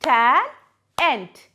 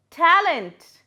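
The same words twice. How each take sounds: First: "talent" broken in two, loud separate beats; split into syllables. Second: Said in the usual way. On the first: Shown as a demonstration. Teacher showing pupils two syllables, "talent" split loudly. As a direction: sound out "talent" loudly, pausing between syllables. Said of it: "words with two and three syllables". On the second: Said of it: "The next word is talent".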